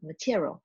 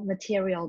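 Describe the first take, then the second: First: One syllable of the word is dropped. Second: Every syllable of the word is pronounced. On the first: The speaker calls it wrong. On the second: The speaker calls it right.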